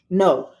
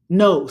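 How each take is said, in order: First: The word is said in a sleepy, drowsy way. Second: The word is said in a mean, harsh way. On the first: "Say it with a sleepy face" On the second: "Say it with a mean face"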